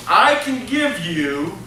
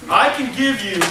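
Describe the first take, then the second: First: A slow, faint hint of a Brazilian accent on I can give you; lightly put-on Brazilian accent, drawn out. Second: Said in the usual way. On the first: Tomas pitching the hotel owner, faint Brazilian accent. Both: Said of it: "I'm gonna drop the accent".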